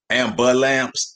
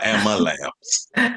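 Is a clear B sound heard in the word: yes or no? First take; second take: yes; no. First: The word is said with a clear B sound. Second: The word is said without any B sound. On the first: The speaker is more city than country. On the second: The speaker is more country than city.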